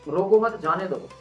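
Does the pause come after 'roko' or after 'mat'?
after mat. The pause comes after the word 'mat'. Do not stop them; let them go. "अगर आपकी life से कोई जाना चाहता है तो उसको रोकिए मत"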